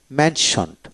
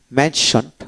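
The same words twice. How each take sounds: The two takes are said the same way.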